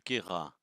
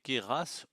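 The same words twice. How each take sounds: First: The name is said with a standard French pronunciation. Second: The name is said with a Provençal pronunciation. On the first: This is the expected pronunciation. The speaker calls it right. "au lieu de" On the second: This is the speaker's regional habit. The speaker calls it wrong. "C'est une vieille habitude provençale"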